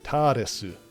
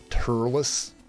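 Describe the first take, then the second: First: The name is said with Japanese pronunciation. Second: The name is said with English pronunciation. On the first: This is the name used in the original Japanese. "the actual Japanese pronunciation will be like" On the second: This is the name used in the English dub. "as they call him in the dub"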